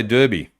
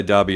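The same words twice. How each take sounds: First: Derby with an er first vowel; DER-bee pronunciation. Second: Derby with an ah first vowel; DAR-bee pronunciation. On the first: Host showing what others say, Derby said DUR-bee. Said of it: "Some people say Derby". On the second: Host agreeing with co-host, Derby said DAR-bee. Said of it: "I think I say Derby as well". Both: Shown as a demonstration.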